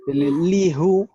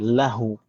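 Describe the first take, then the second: First: The first vowel is an i sound. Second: The first vowel is an a sound. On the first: The speaker calls it wrong. "kalau dipaksakan pakai kasroh itu berat untuk diucapkan" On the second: The speaker calls it right. "dia tandai fathah supaya lebih ringan diucapkan"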